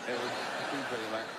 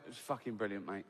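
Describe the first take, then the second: First: Laughing through it. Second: Low and soft, bone dry; deadpan Bob. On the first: Comedian repeating Bob's reply to the vicar, laughing. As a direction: let the laugh break into the line. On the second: Bob to the shaken vicar after the funeral, deadpan and quiet. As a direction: say it straight to the vicar's face, no smile. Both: Retold or imitated. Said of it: "And Bob went".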